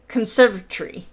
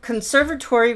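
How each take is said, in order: First: Conservatory squashed to "con-SERV-a-tree"; conservatory, louder, with "tory" shrunk to "tree"; British squished pronunciation. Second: Said in the usual way. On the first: Shown as a demonstration. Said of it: "the Brits like to squish words". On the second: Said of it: "Conservatory would be".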